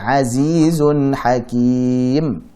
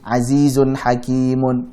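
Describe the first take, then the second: First: The last word ends on a bare m sound. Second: The last word ends with an added -un sound. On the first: The speaker calls it right. "Tapi azizun hakim" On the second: The speaker calls it wrong. "apakah menjadi azizun hakimun? Bukan"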